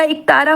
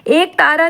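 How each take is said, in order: First: Said in the usual way. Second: एक तारा opening on long e; wrong form. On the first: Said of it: "एक तारा होता". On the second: Shown as a demonstration. Teacher rejects a misspelling, long e in एक तारा. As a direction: say एक तारा as two words. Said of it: "एक तारा नहीं होता".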